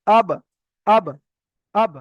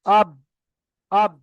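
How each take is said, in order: First: আব with lips parted instantly after the ba; touch the lips on আব and spring them apart for a small echo; qalqalah echo. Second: আব with lips held shut on the ba; no qalqalah. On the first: Teacher corrects to proper qalqalah, আব with a bounced ba. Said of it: "দুটো ঠোঁট এক জায়গা করে সঙ্গে সঙ্গে আলাদা করতে হবে". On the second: Teacher shows reading without qalqalah, আব stopped dead on the lips. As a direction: end আব on a closed, unreleased ba, no echo. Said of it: "কলকলা না করে পড়াটা সেটা কেমন দেখেন". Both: Shown as a demonstration.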